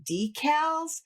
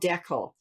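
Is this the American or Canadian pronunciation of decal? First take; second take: American; Canadian. First: It is said the American way. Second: It is said the Canadian way. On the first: "what you guys say" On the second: "We call"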